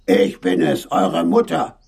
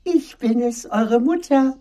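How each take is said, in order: First: Rough voice posing as mother; wolf's own rough tones, trying to persuade. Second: Very high, coaxing fake-mother falsetto; wolf's disguised soft voice. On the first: Wolf claims to be mother at the door, rough voice. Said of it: "sagte eine raue Stimme". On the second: Wolf claims to be mother, high chalk-softened voice. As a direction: pose as gentle mother in a high voice. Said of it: "rief der Wolf mit seiner neuen Stimme". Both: A narrator's reading.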